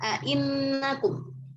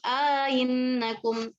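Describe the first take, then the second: First: Clear second glottal stop, with no inserted long vowel. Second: Softened second glottal stop, with an inserted long vowel. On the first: "tahqiqul hamzah yang kedua, ya, tanpa idghal" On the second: "tashil hamzah kedua dengan idghal"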